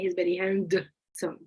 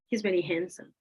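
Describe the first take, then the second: First: The D sound in handsome is clearly pronounced. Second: The D sound in handsome is left out. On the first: The speaker calls it wrong. "But you don't say he's very handsome because it's gonna take longer" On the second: The speaker calls it right. "So what you do is that you drop the D"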